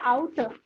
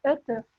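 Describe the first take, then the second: First: The first vowel is said as two vowels. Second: The first vowel is said as one vowel. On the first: The speaker calls it wrong. "kita bukan bacanya auto" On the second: The speaker calls it right. "tapi eute"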